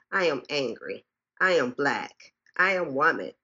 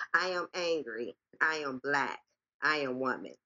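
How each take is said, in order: First: Said in the usual way. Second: Softer, pulled-back repeat of the refrain. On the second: Acted. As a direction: drop the volume and let the refrain sink in.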